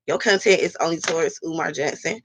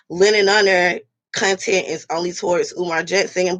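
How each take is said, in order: First: Your pressed as the turn-back, softer and lower; stress on your. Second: Lightly voiced critics quoting a complaint; a hint of mocking the commenters' claim. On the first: Shown as a demonstration. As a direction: quietly throw your back at the critic. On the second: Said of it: "They be like".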